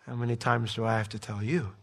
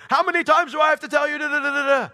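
First: Low, soft, tender reproach; gracious, gentle voice. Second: High, loud, fast scolding rant; exasperated parent. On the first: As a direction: say it softly, like a patient voice from behind. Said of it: "that gracious, gentle voice behind you going". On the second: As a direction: yell it like a parent who has had enough. Parent scolding his kid, acted out. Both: Acted.

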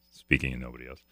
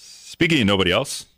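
First: Much lower and softer, under the breath; quiet echo to himself. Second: Said in the usual way. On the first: Real, not acted. Host puzzling over his own segue, quiet aside. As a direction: say it low, as an aside to yourself.

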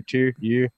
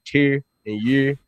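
First: "tier" as "tuh" and "year" as "yuh", r dropped, quieter; Baltimore pronunciation. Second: "tier" and "year" said the Baltimore way, r-colored and drawn out; Baltimore pronunciation. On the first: Repeating the Baltimore words for co-hosts, r swallowed, softer. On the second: Demoing Baltimore speech to his podcast co-hosts, r-colored "tier" and "year". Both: Shown as a demonstration. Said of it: "Baltimore, that's how they talk".

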